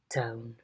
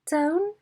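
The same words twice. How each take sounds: First: The pitch falls from mid to low. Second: The pitch rises up to high. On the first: "a low fall" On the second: "a high rise"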